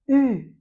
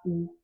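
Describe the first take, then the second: First: "u" as French front rounded vowel, high and loud; a firm, raised "u", lips rounded on an ee sound; correct vowel U. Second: "ou" said with a back rounded oo sound; the mistaken "ou", as in French "vous"; wrong vowel OU. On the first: Teacher corrects pupils' vowel, saying a clear loud "u". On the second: Teacher warns pupils against misnaming the vowel, saying a wrong "ou". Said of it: "faut pas commettre une erreur d'appeler ça". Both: Shown as a demonstration.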